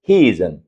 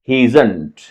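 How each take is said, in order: First: The final t sound is dropped. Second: The final t sound is pronounced. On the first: "जब और भी fast बोलें तो यहां तक आप रुकें" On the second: "he is नॉट की बजाय क्या बोलना है"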